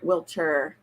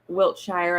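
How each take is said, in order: First: The ending 'shire' is blurred into the word. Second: The ending 'shire' is said clearly and fully. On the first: "like it's blurred together" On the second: "I've heard it said Wiltshire"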